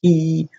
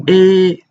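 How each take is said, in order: First: E said as a plain English ee; the wrong E, a clean ee; not the Mandarin E, a plain ee; wrong E sound. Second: E said between A and E, higher; the Mandarin E, between A and E; right E sound. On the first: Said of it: "So it's not E". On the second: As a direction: blend A and E into one vowel. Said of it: "but it's E". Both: Shown as a demonstration.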